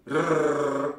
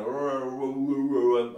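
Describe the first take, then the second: First: Trilled rrrr, tongue tip rattling; rolled Hungarian r. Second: Rrrr held smooth with tongue pulled back, no trill; English r. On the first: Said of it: "nem úgy mondjuk". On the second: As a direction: angol r hang. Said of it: "hanem kicsit ilyen". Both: Shown as a demonstration.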